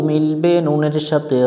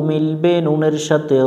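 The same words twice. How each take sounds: Both takes have the same delivery.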